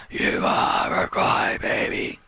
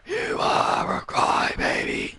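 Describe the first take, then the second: First: Much lower, soft, slow growled sneer; low growled taunt. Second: High, soft, slow blubbering mock sob; whiny mock crying taunt. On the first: Acted. Wrestler mocking a loser, low growled sneer. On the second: Wrestler mocking a loser, whiny mock crying. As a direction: blubber it like a crybaby.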